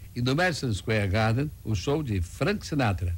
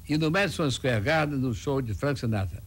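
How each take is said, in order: First: Frank Sinatra gets extra emphasis at the end. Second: No word gets any extra emphasis here. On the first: "Frisa um pouco o [name]" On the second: "não valoriza nada"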